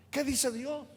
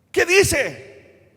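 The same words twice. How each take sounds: First: Asked softly, almost hushed; quiet question. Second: Higher and louder, punched; forceful question. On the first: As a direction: lean in and ask it quietly. Predicador pregunta suave a la congregación. (pregunta suave, casi en voz baja) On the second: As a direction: hit it hard as a challenge. Predicador repite la pregunta con fuerza. (pregunta enérgica, más aguda y fuerte) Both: Acted.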